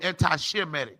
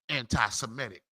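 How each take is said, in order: First: The middle begins with an sh sound. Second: The middle begins with an s sound. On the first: The word is derived from the name Shem. The speaker calls it right. "It's supposed to be anti-Shemitic" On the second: This is the common way others say it. The speaker calls it wrong.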